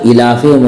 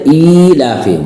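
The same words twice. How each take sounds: First: The vowel after the f is short. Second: The vowel after the f is long. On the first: The speaker calls it wrong. "जेर होता तो इलाफिहिम होता" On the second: The speaker calls it right. "खड़ा जेर है तो इलाफिहिम होगा"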